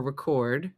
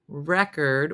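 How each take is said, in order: First: "record" as ri-KORD; the verb "record", ri-KORD; stress on second syllable. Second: "record" as REK-erd; the noun "record", REK-erd; stress on first syllable. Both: Shown as a demonstration. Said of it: "record or record".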